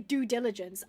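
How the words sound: 'Due' is said in an American accent. "if I was American, I say due diligence"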